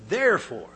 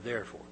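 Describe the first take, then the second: First: "Therefore" punched out loud, higher, falling; emphasized word. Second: Said in the usual way. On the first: Shown as a demonstration. Preacher stressing "Therefore" to the congregation, loud and emphatic. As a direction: hit "Therefore" hard and high, then let it fall. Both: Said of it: "I want to emphasize that word".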